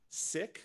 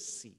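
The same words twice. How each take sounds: First: The word has its original, non-Americanized pronunciation. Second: The word has an Americanized pronunciation. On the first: "the religion is pronounced Sikh" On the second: "the Americanized pronunciation"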